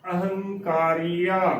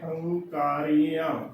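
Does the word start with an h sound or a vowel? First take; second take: vowel; h sound. First: The word begins with a vowel before the h. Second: The word begins directly with an h sound. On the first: The speaker calls it right. "ਇਹ ਬਿਲਕੁਲ ਸਹੀ ਉਚਾਰਨ ਹੈ" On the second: The speaker calls it wrong. "ਸੋ ਹੰਕਾਰੀਆਂ ਉਚਾਰਨ ਗਲਤ ਹੈ"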